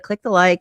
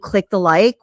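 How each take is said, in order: First: It is said in a quick, offhand tone. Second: It is said in a pleading, begging tone.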